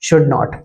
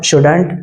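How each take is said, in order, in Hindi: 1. यह दो अलग-अलग पूरे शब्दों की तरह बोला जाता है। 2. यह एक संक्षिप्त (कॉन्ट्रैक्टेड) शब्द की तरह बोला जाता है। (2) "शुड नॉट का जो कॉन्ट्रैक्शन होता है वो शुडंट होता है"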